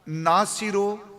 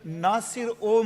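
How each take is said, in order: First: The final o is joined onto nasir. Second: The o is said as a separate word. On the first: The speaker calls it wrong. "Punjabi ਚ ਉਹ ਇਕੱਠਾ ਬਾਤ ਆ" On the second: The speaker calls it right. "Persian ਚ ਹੈ ਨਾਸਿਰ ਉਹ ਮਨਸੂਰ"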